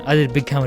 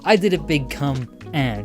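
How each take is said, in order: First: It is said fast with no pause. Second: There is a slight pause before 'and'. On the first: The speaker calls it wrong. "it just does it all at once" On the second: The speaker calls it right. "you have like a slight pause"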